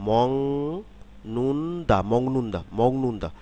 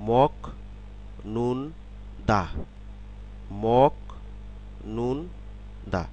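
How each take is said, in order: First: "মং নুন দা" with k softened to ng; word pronunciation. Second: "মক নুন দা" in separate syllables with pauses; syllable-by-syllable reading. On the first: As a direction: say "মং নুন দা" joined, ringing ng into n. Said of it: "শব্দে এই সিলেবলগুলোর উচ্চারণ". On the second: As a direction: say "মক নুন দা" piece by piece, hard k stop. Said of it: "সিলেবলগুলোর উচ্চারণ কীরকম হবে". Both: Shown as a demonstration.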